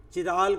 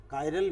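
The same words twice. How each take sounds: First: चिराल with a "ch" start, not a "k"; alternative pronunciation. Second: Said in the usual way. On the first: Shown as a demonstration. Teacher showing students how some people pronounce it, alternative pronunciation. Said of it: "pronounce कर देते हैं, अलग-अलग दुनिया में". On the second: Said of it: "pronounce कर देते हैं".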